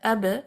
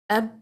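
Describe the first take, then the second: First: The final b is released with a bounce. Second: The final b stops short at the lips. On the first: "if I bounce the letter ab" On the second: "do not bounce it just for the sake of finding its makhraj and read it like ab"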